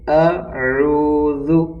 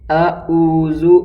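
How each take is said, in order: First: The middle sound is squeezed from mid-throat. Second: The middle sound is a light glottal catch. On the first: The speaker calls it right. "आइन जो अदा होता है वो हलक़ के दरमियानी हिस्से से अदा होता है" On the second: The speaker calls it wrong. "नहीं पढ़ा जाता"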